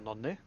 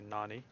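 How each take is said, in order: First: The name is said with a Norwegian pronunciation. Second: The name is said with an American pronunciation.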